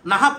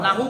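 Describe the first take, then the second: First: "নাহাব" as na-hab, stressed; correct pronunciation. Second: "নাহু" as na-hu, with a final u; wrong pronunciation. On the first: Teacher drilling students on reading, "নাহাব" closed by a consonant. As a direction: say "নাহাব" with two a sounds and a closed ending. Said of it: "কি পড়বেন?". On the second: Teacher asking if we read it so, "নাহু" ending in u. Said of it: "পড়বো না". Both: Shown as a demonstration.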